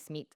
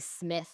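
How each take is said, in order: First: It is said with a Spanish accent. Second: It is said with an American English accent.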